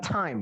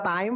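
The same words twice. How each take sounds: First: The t is said the English way. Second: The t is said the Indonesian way. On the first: The speaker calls it right. "yang kedua" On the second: The speaker calls it wrong. "Yang pertama"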